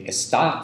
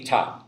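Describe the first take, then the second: First: Está with the first syllable kept; full form. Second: Ta with the es syllable gone; clipped spoken form. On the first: Teacher showing the written form, está pronounced in full. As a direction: say está in full, es before stressed tá. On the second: Teacher showing natural spoken Portuguese, ta without its first syllable. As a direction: say only ta, dropping the opening es. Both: Shown as a demonstration. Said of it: "The S syllable part is gone".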